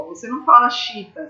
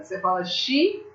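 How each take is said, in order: First: Chita, two syllables, xi glided into one; wrong reading chita. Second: Xiita with the two i's split, xi-i-ta; xiita in three syllables. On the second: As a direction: separate both i's in xiita. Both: Shown as a demonstration.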